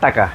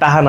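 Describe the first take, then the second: First: The middle consonant is a clear k sound. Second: The middle consonant is a soft h sound. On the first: It is the standard form. The speaker calls it right. "টাহা না টাকা" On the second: It is the regional dialect form. The speaker calls it wrong. "আঞ্চলিক ভাষায় টাহা কয়"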